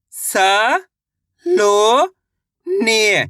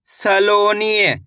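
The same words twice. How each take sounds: First: स, लो, ने drawn out one at a time; syllable by syllable. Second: Said in the usual way. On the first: Shown as a demonstration. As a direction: sound out स, लो, ने with a pause after each. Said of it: "एक अक्षर का उच्चारण सही से". (स, लो, ने अलग-अलग खींचकर) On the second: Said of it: "शब्द का उच्चारण सही से हो जाएगा".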